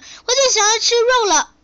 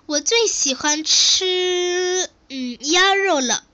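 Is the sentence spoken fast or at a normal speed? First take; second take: fast; normal. First: It is spoken fast, swallowing one syllable. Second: It is spoken at a normal, even speed. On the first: The speaker calls it wrong. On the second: The speaker calls it right.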